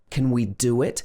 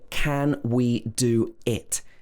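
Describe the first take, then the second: First: The words are joined with a w sound. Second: The words are said separately without a linking w. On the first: The speaker calls it right. "Sometimes it creates a w sound" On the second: The speaker calls it wrong. "We don't say"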